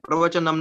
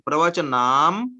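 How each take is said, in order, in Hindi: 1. आखिरी m से पहले का स्वर ह्रस्व है। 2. आखिरी m से पहले का स्वर दीर्घ है। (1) "प्रवचनम नहीं" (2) "ये प्रवचनाम बोलना है यहाँ"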